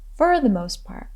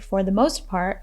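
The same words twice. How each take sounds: First: The word 'for' is reduced, sounding like 'fur'. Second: The word 'for' is said fully, like 'for'. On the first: "a more casual way of saying it is pronouncing the word for as fur" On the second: "you can say for the most part"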